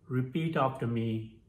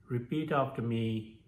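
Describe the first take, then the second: The two takes are said the same way.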